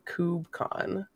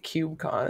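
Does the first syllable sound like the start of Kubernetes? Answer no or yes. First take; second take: yes; no. First: The first syllable matches the start of Kubernetes. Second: The first syllable differs from the start of Kubernetes. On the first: The speaker calls it right. "technically it's KubeCon because it's Kubernetes" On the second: The speaker calls it wrong. "I say KubeCon"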